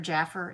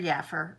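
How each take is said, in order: First: The word begins with a J sound. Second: The word begins with a Y sound. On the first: "it's a J" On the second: "or a Y"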